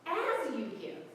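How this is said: The stress falls on the word as. The focus is on the manner of giving. The speaker calls it right. "Let's put the emphasis on the as"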